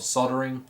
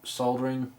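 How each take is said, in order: First: It is said in an American accent. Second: It is said in the speaker's own non-American accent.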